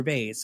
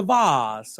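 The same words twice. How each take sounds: First: Everyday American VAYS for "vase". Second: Pompous VAHZ for "vase". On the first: Host offers the other option, "vase" rhyming with "base". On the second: Host mocks pompous speakers, "vase" rhyming with "spas". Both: Shown as a demonstration. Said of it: "however pompous you are".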